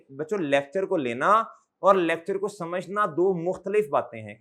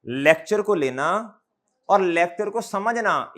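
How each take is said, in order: First: Said in the usual way. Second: Slowed right down, each phrase pressed home; slow and stressed. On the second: Shown as a demonstration. Teacher stressing the key point to his students, slow and weighty. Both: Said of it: "normal speed से कम पे आके बोलूंगा और जोर दे के".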